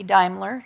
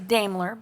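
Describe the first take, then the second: First: The name is said the German way. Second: The name is said a non-German way. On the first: This is how it is said in Germany. The speaker calls it right. "in Germany it would be Daimler" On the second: This is how some people say it. The speaker calls it wrong. "Some people say Daimler"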